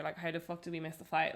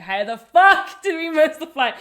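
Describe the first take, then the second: First: Said in the usual way. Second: Much louder and higher, laughing disbelief; exasperated outburst. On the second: Retold or imitated. Retelling missing flight.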